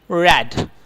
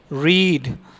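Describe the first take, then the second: First: The vowel is short, as in 'red'. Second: The vowel is long, as in 'seat'. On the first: It is the past form of the verb. "Second form of read" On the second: It is the present form of the verb. "this is the first form"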